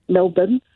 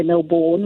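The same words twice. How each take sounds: First: "Melbourne" with a reduced second syllable, MEL-bn; local pronunciation of Melbourne. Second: "Melbourne" with a full second syllable, MEL-born; non-local pronunciation of Melbourne. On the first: Australian caller showing how locals say it, "Melbourne" as MEL-bən. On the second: Australian caller showing what locals don't say, "Melbourne" as MEL-born. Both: Shown as a demonstration. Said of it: "We don't say Melbourne or".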